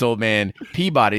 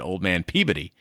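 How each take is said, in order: First: Peabody is pronounced the Californian way. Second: Peabody is pronounced the Boston way. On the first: "So in California, it's old man Peabody" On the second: "if it had been on the East Coast"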